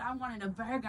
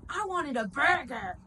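First: Said in the usual way. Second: Loud, higher, drawn-out demand; imitated homeless woman. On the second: Homeless lady rejecting the free food, imitated loud complaint. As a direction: mimic an indignant complaint, slow and raised. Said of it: "Literally, she said that".

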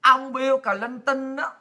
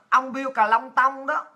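First: Said in the usual way. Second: Bill Clinton said as "Bill Cà Long Tông", slow, syllable by syllable; mock-mangle the name into "Cà Long Tông"; Vietnamized name. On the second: Shown as a demonstration.

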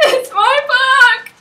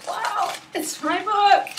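First: Very high, very loud, slow crying squeal; real joyful sob-squeal on book; tearful squeal. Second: Higher, slow, teary wonder; real choked-up disbelief; tearful awe. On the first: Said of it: "Sorry for the high-pitched squealing". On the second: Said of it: "I'm sorry for the tears". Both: Real, not acted.

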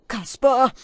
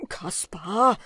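First: Hoch und laut gerufen; lauter Ruf. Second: Lauter, fragender Anruf; wahnsinniger Ruf. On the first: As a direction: ruf ihn scharf an. Falke ruft Kaspar an. (laut rufend) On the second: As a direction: ruf ihn ungläubig an. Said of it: "schrie Wim wie ein Wahnsinniger". (wahnsinnig rufend) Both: A narrator's reading.

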